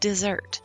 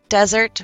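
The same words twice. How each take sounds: First: The E is said as a long ee sound. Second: The E is said as a short eh sound. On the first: To abandon. "if we change that to a long E" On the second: A hot, sandy place with cactus. "short E, eh, eh"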